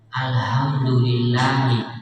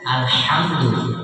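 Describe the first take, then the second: First: The h is a light sound from low throat. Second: The h is a harsh sound from mid-throat. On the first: Death belongs to God. The speaker calls it wrong. "hak kacamata ini sama dengan hamzah tenggorokan bawah, uh, fatal sekali" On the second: All praise belongs to God. The speaker calls it right. "dikeluarkan dari tenggorokan tengah sama dengan ain"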